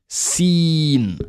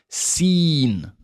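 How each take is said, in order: Both takes have the same delivery.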